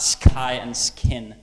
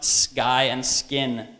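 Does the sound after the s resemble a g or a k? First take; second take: k; g. First: The sound after s is a puffed k. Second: The sound after s is soft, like g. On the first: The speaker calls it wrong. "not sky and skin" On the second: The speaker calls it right. "So it should be pronounced sky and skin"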